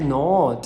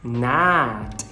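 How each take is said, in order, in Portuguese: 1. A vogal soa como o O do português. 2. A vogal soa como o inglês padrão americano. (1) "E a gente faz o O" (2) "no inglês padrão americano, a pronúncia dessa palavra seria not"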